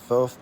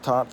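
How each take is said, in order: First: It begins and ends with a th sound. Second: It begins and ends with a t sound. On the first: The speaker's own way of saying the name. "I say Thoth" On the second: Other people's way of saying the name. "Other people say thought or taught"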